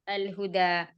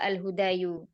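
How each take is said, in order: First: The word ends on a plain long 'a'. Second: The word ends with an added 'yu' syllable. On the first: The speaker calls it right. "Tapi dibaca" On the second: The speaker calls it wrong. "bukan pula al-hudayu"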